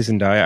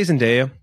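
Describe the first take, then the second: First: Zendaya said zen-DIE-uh. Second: Zendaya said zen-DAY-uh. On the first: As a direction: middle of Zendaya rhymes with "die". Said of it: "I say Zendaya". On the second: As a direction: middle of Zendaya rhymes with "day". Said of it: "Some people say Zendaya". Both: Shown as a demonstration.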